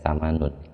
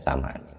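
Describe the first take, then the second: First: The word ends with an 'un' sound. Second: The word ends with an 'in' sound. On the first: The word is not treated as a defective noun. The speaker calls it wrong. "Tadi saya bacanya samanun" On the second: The word is treated as a defective noun. The speaker calls it right. "Jadi bacanya samanin"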